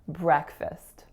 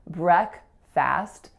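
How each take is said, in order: First: The second syllable has a reduced schwa vowel. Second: The second syllable sounds like the word fast. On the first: The speaker calls it right. "F schwa st, fust" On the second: The speaker calls it wrong. "it's not break fast"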